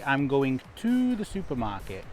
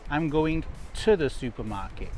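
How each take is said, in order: First: The word 'to' has a full vowel. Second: The word 'to' is reduced to a schwa. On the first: The speaker calls it wrong. "We don't say" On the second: The speaker calls it right. "using the schwa sound"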